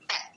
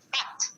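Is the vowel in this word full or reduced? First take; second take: reduced; full. First: The word has a reduced, weak vowel. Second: The word has a full, clear vowel. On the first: "weak form will be bet" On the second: "But is here strong form"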